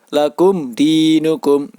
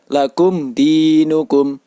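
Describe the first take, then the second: No difference in how they are said.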